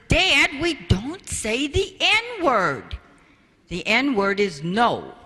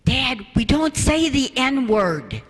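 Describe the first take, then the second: First: Lightly voiced daughter, higher and slow; chiding daughter. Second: Lightly voiced daughter, higher and slower; chiding daughter. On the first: Daughter correcting her father outside, mock prim. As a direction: correct Dad primly. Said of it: "Jennifer comes out and says". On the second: Daughter correcting her father in front of the child, mock prim. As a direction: correct Dad gently but firmly. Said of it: "Jennifer's standing behind the child ... going".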